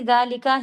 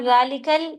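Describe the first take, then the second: First: The word ends on a plain 'a' vowel. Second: The word ends with an 'al' sound attached. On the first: The speaker calls it right. "ज़ालिका ही कहेंगी" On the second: The speaker calls it wrong. "अगर आप ज़ालिकल कहेंगी तो ये सही नहीं है"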